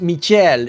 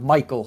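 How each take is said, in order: First: The name has a 'sh' sound in the middle. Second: The name has a 'k' sound in the middle. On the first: This is how the player says his own name. The speaker calls it right. "it's supposed to be pronounced Michel" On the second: This is how most other people say the name. The speaker calls it wrong. "everyone mispronounces his name"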